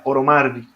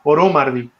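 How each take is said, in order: First: The stress is on the penultimate syllable. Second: The stress is on the antepenultimate syllable. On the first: The speaker calls it right. "sería Oromardi" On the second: The speaker calls it wrong. "en este caso no sería Oromardi"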